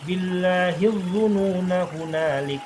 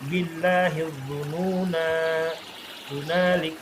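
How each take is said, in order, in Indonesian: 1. Vokal akhir yang pendek langsung menyambung ke kata berikutnya. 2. Vokal akhir yang dipanjangkan diikuti jeda. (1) "ketika dia dibaca wasol, nanya jadi berharokatnya pendek langsung ke hu" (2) "Tapi kalau berhenti"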